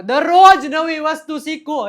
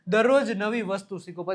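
First: દરરોજ called out much louder and higher, slowed; emphatic advice. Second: Said in the usual way. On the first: Shown as a demonstration. Teacher urging students to learn daily, loud and emphatic. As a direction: urge it, leaning hard on દરરોજ.

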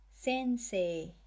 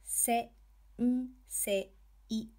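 First: Sensei joined up, "sei" held as long "see"; long final "ee" in Sensei; long vowel. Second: "Se-, n-, se-, i" one beat at a time; syllable-by-syllable "Se-, n-, se-, i"; sounded out. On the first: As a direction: blend it into one word, stretching the last e of Sensei. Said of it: "To extend syllables in the e". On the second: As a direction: separate each kana, Se, n, se, i, with pauses. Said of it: "you add the hiragana". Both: Shown as a demonstration.

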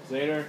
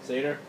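Both takes have the same delivery.

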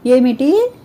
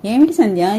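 First: A sharp, rising "ఏమిటి?" in disbelief; stunned "ఏమిటి?", higher and louder; shocked. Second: Said in the usual way. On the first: Acted. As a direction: gasp out "ఏమిటి?" as the news hits. Shocked at news of patient.

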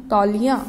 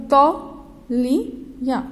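First: Said in the usual way. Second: "तौलिया" stretched slowly, each syllable drawn out; slow model reading. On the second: Shown as a demonstration. Teacher modelling "तौलिया" for children, slowly stretched. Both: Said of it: "तौ के ऊपर हमने औ की मात्रा लगाई तो क्या बन गया".

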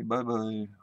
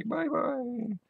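First: A lightly voiced, lower, softer "Bye-bye."; Russian girl voice. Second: Put-on a light, higher-pitched girlish "Bye-bye."; Japanese girl voice. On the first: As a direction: mimic a Russian girl saying "Bye-bye." quietly. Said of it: "And the Russian girl say". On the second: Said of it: "And the Japanese girl say".

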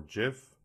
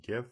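First: "gif" said with a soft g, like "jif"; soft-g pronunciation. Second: "gif" with a hard g, as in "give"; hard-g pronunciation. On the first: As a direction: start "gif" with a j sound, as in "jam". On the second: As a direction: say "gif" starting with a hard g sound. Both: Shown as a demonstration. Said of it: "depending on your pronunciation of that".

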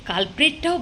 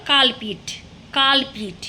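First: কালপ্রিটটাও with the r in কালপ্রিট clearly said; correct pronunciation. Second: কালপিট said with no r, like কালপ্রিট missing its r; mocked mispronunciation. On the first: Shown as a demonstration. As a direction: give the right form: কালপ্রিট with its r. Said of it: "কালপ্রিটটাও বলতে পারেন না". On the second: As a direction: imitate the mistake: কালপিট, dropping the r. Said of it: "একজন তো আজকে শুনলাম, কি বললো?".

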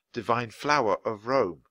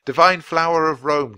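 First: Said in the usual way. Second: Loud call of the name. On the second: Acted. Jack calls the unicorn's name, loud. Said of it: "Jack called".

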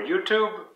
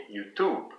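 First: Said in the usual way. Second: Softer "YouTube", stressed on "Tube"; French pronunciation. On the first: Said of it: "And for YouTube". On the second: Shown as a demonstration. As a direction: say "YouTube" the French way, weight at the end. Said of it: "So in French".

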